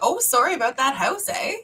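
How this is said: It is said in a relaxed everyday accent. "when you say it with my just like around the house"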